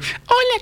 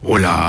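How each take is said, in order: First: It is said in a sweet, gentle voice. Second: It is said in a loud, heavy voice.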